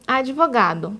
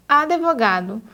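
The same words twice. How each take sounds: First: Advogado with the d softened to dji; pronúncia correta; correct pronunciation. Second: Advogado said without the extra i sound; pronúncia errada; wrong pronunciation. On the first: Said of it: "o adequado é falar advogado". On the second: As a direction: Advogado as a-de-vo-ga-do, wrong vowel after d. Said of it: "quando o adequado é falar advogado". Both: Shown as a demonstration.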